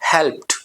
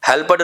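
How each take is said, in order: First: The word ends with a T sound. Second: The word ends with a D sound. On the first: The speaker calls it right. "ईडी की जगह यहां पे टी लगा देंगे" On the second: The speaker calls it wrong. "हेल्प्ड नहीं"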